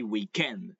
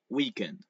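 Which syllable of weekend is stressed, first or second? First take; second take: second; first. First: The stress is on the second syllable. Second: The stress is on the first syllable. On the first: The speaker calls it right. "We say weekend. There falls the accent at the end of the word" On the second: The speaker calls it wrong. "We don't say weekend"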